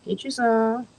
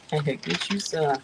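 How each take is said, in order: First: Said in the usual way. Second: Slow, stretched out, teasing; slow drawn-out offer. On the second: Shown as a demonstration. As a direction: draw every word out slowly. Offering food, repeated slowly.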